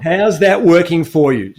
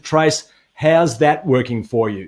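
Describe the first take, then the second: First: Slow repeat of the mum's line; mum's question. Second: Slow, pointed mum's question; lightly voiced mother asking it slowly. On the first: Retold or imitated. Host repeating the mum's famous line, slowly. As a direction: ask it slowly and knowingly. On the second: Host quoting Tracy's mum, slow and pointed. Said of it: "your mum looked at you and said".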